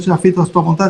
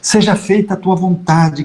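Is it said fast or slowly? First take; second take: fast; slowly. First: It is said fast and mechanically. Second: It is said slowly and thoughtfully.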